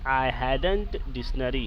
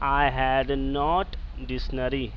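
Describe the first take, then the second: First: "Had not" is contracted into one word. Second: "Had not" is said as two full words.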